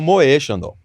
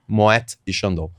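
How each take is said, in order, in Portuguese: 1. O t no final de Moët é mudo. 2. O t no final de Moët é pronunciado. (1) "noventa e nove por cento das pessoas falam Moe Chandon" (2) "Moe é Moet e Chandon, por quê? Tem a trema no E"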